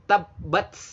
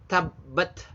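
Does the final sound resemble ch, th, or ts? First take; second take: ts; th. First: The final consonant sounds like ts. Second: The final consonant sounds like th. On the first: The speaker calls it wrong. "Salah besar kalau hamas dianggap seperti ts" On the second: The speaker calls it right. "Tabbat itu ya th aja"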